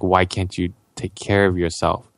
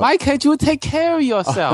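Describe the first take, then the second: First: It is said in a normal voice. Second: It is said in a high Mickey Mouse voice.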